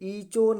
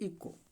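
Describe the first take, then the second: First: The middle consonant is a ch sound. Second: The middle consonant is a k sound. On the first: The speaker calls it wrong. "ईचो नहीं पढ़ा जाएगा" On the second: The speaker calls it right. "क्या पढ़ा जाएगा"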